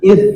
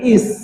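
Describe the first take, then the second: First: The consonant is a thinner, breathy hissed sound. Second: The consonant is a heavier, plain s sound. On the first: The speaker calls it right. "id lebih tipis" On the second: The speaker calls it wrong. "Jangan is"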